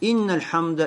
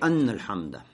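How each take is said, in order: First: The first word begins with an i vowel. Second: The first word begins with an a vowel. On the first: "кясра инна" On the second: "фатха анна"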